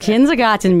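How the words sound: The word is said in a German accent.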